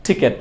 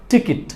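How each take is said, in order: First: "টিকিট" said with e in the second syllable, ti-ket; wrong pronunciation. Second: "টিকিট" with i in both syllables, ti-kit; correct pronunciation. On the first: Teacher shows what not to say, wrong pronunciation. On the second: Teacher contrasts right with wrong ticket, correct pronunciation. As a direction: say "টিকিট" ending on -kit, not -ket. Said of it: "এটাকে আমরা উচ্চারণ করব". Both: Shown as a demonstration.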